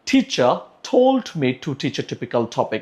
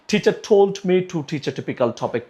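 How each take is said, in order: First: The sentence is said at a normal pace. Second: The sentence is said a little faster.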